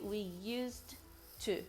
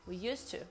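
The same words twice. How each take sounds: First: Used and to are pronounced as separate words. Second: Used and to are joined with one t sound. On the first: The speaker calls it wrong. "You don't say" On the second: The speaker calls it right. "Connect them"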